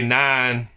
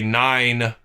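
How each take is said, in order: First: The word is said in a relaxed, casual way. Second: The word is said carefully, with full articulation. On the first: "I don't say nine" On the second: "I say nine, so that people don't ask me what I'm saying"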